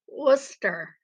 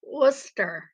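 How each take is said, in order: First: The name sounds like Wooster. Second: The name sounds like Wooster.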